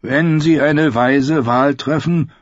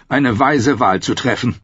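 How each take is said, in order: First: Slow, mournful higher voice; gloomy complaint. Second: Higher, coaxing rise on weise; wheedling courtier. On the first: Glum Ed jokes about the vote, slow and mournful. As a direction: moan it like a born pessimist. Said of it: "klagte der schwermütige Ed". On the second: Janos suggests the king guide the vote, coaxing. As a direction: coax gently. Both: A narrator's reading.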